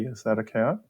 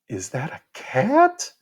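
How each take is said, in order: First: The pitch is normal with subtle rises and falls. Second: The pitch is high with exaggerated, sweeping intonation. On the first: The speaker is talking to adults. "if I was speaking normally to you all" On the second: The speaker is talking to a young child. "I used a lot of intonation that I typically wouldn't"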